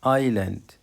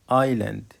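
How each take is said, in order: Both takes have the same delivery.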